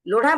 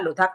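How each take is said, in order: First: The middle consonant is a retroflex flap ढ़. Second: The middle consonant is a dental aspirated dh. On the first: The speaker calls it right. "लोढ़ा बोला जाता है" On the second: The speaker calls it wrong. "लेकिन लोग उसको लोधा लोधा लोधा कर रहे हैं"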